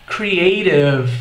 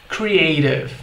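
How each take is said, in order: No difference in how they are said.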